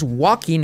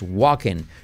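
First: The -ing vowel is a tense 'ee' sound. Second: The -ing vowel sounds close to 'e'. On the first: The speaker calls it wrong. "No es walking" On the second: The speaker calls it right. "es walking"

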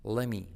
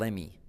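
First: The t sound is dropped, words run together. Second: The t sound is dropped, words run together.

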